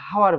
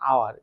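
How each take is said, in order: First: The word begins with an h sound. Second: The word begins with a vowel sound. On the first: The speaker calls it wrong. "এটাকে আমরা হাওয়ার বলবো না" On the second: The speaker calls it right. "এটাকে কি বলবো, আওয়ার"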